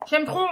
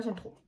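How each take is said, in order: First: Louder, higher burst of liking; gushing and emphatic; emphatic enthusiasm. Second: Quiet, understated liking; softly confiding; soft aside. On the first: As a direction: push it out with delight. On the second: Repeats her liking, first low. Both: Real, not acted.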